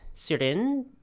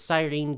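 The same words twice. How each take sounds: First: The name has a French pronunciation. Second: The name has an English pronunciation.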